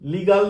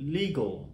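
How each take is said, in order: First: The final syllable has a full vowel. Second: The final syllable is reduced and weak. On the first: The speaker calls it wrong. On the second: The speaker calls it right.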